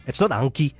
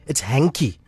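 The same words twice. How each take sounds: First: Hankie said as the town name, like a nickname; wrong Hankie. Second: Hanky said like the handkerchief word, corrected. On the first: Relative correcting Charlton says Hankie the local way. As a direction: say Hankie the local way, flat and casual. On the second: Relative correcting Charlton insists on the proper Hanky. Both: Retold or imitated.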